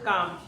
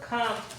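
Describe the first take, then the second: First: The first consonant is unaspirated, without a puff. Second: The first consonant is aspirated, with a puff. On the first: The speaker calls it wrong. "আমরা তো বলি কাম" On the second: The speaker calls it right. "উচ্চারণটা তো খাম"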